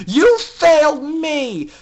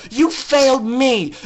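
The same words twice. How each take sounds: First: Slow, louder, higher repeat; repeated verdict, slower and heavier; furious, slower. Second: Furious. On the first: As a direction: drag out the blame. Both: Acted. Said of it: "remembering her anger".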